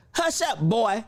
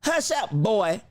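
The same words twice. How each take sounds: First: Said in the usual way. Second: Imitating how he said it, leaning on boy; mimicking his tone. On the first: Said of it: "Did y'all hear that?". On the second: Echoing the president to viewers, mild mock imitation. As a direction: copy the president's dismissive tone. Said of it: "did you hear the way he said it?".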